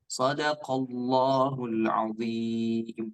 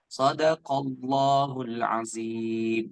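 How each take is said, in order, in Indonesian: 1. Konsonan di 'azim' adalah bunyi mirip dh. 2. Konsonan di 'azim' terdengar seperti z. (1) "Yang harusnya ba- baca" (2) "Ada yang membaca ... hadza khata, keliru ya"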